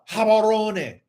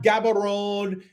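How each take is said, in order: First: The name begins with an H sound. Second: The name begins with a hard G sound. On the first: The speaker calls it right. "in Setswana, the G is pronounced as a H" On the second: The speaker calls it wrong. "It's not Gaborone"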